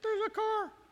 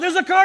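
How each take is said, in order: First: It is said quietly and calmly. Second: It is yelled loudly and urgently.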